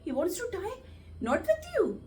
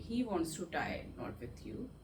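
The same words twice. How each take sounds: First: The sentence is said in a surprised tone. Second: The sentence is said in a sad tone. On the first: "अगर surprise" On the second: "sadly"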